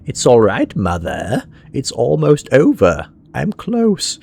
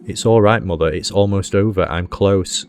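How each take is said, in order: First: It is read in a put-on, creepy character voice. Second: It is read in the speaker's ordinary voice.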